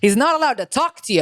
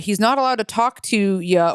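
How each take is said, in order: First: It is said in a put-on New York Italian accent. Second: It is said in the speaker's ordinary accent.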